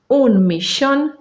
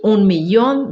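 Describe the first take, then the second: First: The ll sounds like sh. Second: The ll sounds like a light ee glide. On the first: "Pode ser como X, que é a pronúncia rioplatense" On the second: "Eu leio como I"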